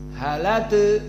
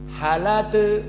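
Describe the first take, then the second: No difference in how they are said.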